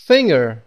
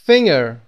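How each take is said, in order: Both takes have the same delivery.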